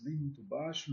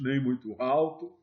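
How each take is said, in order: First: The words "nem muito baixo" said softer, showing too quiet; spoken softly. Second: The words "nem muito alto" said louder, showing too loud; spoken louder. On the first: Sales teacher showing trainees a too-quiet voice, softer. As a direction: drop the volume on "nem muito baixo" to show it. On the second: Sales teacher showing trainees a too-loud voice, louder. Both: Shown as a demonstration. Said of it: "a entonação da sua voz".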